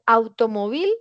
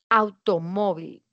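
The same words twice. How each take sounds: First: The stress falls on the last syllable. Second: The stress falls on the second-to-last syllable. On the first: The speaker calls it wrong. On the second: The speaker calls it right. "Es una palabra que pertenece al grupo número dos"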